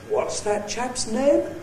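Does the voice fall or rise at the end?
rise. The pitch rises high at the end. The speaker echoes a question asked by someone else. "it very typically has a high-rise tone"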